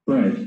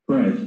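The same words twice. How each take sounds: No difference in how they are said.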